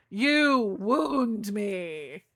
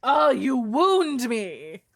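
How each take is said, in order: First: Very slow, stretched-out melodrama; hammed-up hurt, lingering on "wound"; mock wounded. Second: High, loud, drawn-out melodrama; hammed-up hurt, swooping up on "wound"; mock wounded. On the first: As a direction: drag out every word as if fading from hurt. Repeats the mock hurt, more drawn out. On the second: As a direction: wail it slowly as if mortally offended. Mock hurt at being insulted.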